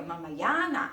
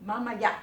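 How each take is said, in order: First: "mamaya na" with long "ya"; linked, lengthened. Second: "mamaya" cut off after "ya"; final glottal stop. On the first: Teacher modelling for learners, "mamaya na" linked without stop. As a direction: stretch "ya" into "na" in "mamaya na". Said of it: "连在一起". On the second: Teacher modelling for learners, "mamaya" with final glottal stop. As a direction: end "mamaya" on a throat catch. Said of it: "你看到后面那个呀". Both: Shown as a demonstration.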